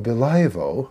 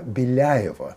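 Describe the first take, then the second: First: The L is hard, followed by a plain a. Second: The L is soft, followed by a ya sound. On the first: The speaker calls it wrong. "так не «Белаево»" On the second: The speaker calls it right. "а «Беляево»"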